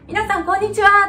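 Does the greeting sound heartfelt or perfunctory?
heartfelt. The greeting sounds warm, with real feeling. The greeting is truly meant for the listeners. The speaker calls it right. "そうじゃなくて"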